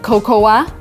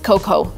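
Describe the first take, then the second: First: The word ends with an extra 'ah' sound. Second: The word ends without an extra 'ah' sound. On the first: The speaker calls it wrong. "I've heard a lot of Americans saying cocoa" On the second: The speaker calls it right. "when in reality it is cocoa. A in the end, we just don't read it"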